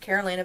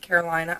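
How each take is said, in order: First: The name ends with the sound 'Lena'. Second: The name does not end with 'Lena'. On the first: "her male counterpart calls her Lena, so I figured it's pronounced Carolina" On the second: "but you might pronounce it Carolina"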